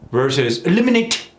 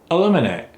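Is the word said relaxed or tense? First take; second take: tense; relaxed. First: Every sound is articulated tightly and precisely. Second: The sounds flow loosely with reduced consonants. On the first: The speaker calls it wrong. "when you're too tight like that" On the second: The speaker calls it right. "See how easy that is?"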